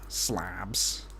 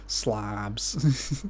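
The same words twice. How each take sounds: First: Slabs said with a flat a like slobs; slabs vowel. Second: Slobs with a flat broad Midwestern o. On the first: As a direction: say slabs with a Midwestern a. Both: Shown as a demonstration. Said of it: "my accent really comes out when I say slobs".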